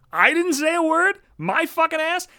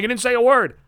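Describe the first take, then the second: First: High, slow rising disbelief on "word"; stunned disbelieving echo; incredulous. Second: Said in the usual way. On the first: Real, not acted. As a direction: echo "I didn't say a word?" as if it's absurd. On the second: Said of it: "And he was like".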